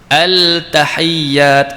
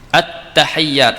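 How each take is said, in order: First: The L is sounded clearly before the T. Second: The L merges into a doubled T sound. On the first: The speaker calls it wrong. "tak kenal lah tu" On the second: The speaker calls it right. "yang betul"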